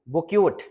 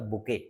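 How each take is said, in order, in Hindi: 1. यह शब्द एक साफ़ t ध्वनि से खत्म होता है। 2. यह शब्द स्वर से खत्म होता है, कोई t ध्वनि नहीं। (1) "लिखा तो बुकेट है" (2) "लेकिन है वास्तव में क्या?"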